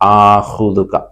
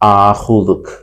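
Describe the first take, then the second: First: The word ends with a final vowel sound. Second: The word ends with a final consonant sound. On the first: This is the full form. "ആഹുദുക എന്നുള്ളത്" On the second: This is how it is said in everyday speech. "ആഹുദുക് എന്നാവും സംസാരത്തിലേക്ക് വരുമ്പോൾ"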